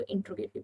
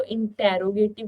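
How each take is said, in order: First: इंट्रोगेटिव with "t" and "r" run together, in-tro-ge-tiv; four-syllable इंट्रोगेटिव, blended "tro"; corrected pronunciation. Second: इंटेरोगेटिव with an extra "e" syllable, in-te-ro-ge-tiv; five-syllable इंटेरोगेटिव, "te-ro" pulled apart; common mispronunciation. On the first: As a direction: say इंट्रोगेटिव with no vowel between t and r. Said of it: "इसको इंट्रोगेटिव कहते हैं". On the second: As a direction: say इंटेरोगेटिव with a separate "te" before "ro". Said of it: "बहुत सारे बच्चे इसको इंटेरोगेटिव कहते हैं". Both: Shown as a demonstration.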